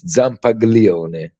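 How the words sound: The name is pronounced the American way. This is how Americans say the name. "every time American people try to pronounce it"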